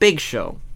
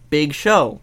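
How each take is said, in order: First: The stress falls on the word Big. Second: The stress falls on the word Show. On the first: The speaker calls it right. "first name Big, last name Show" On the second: The speaker calls it wrong. "Not Big Show"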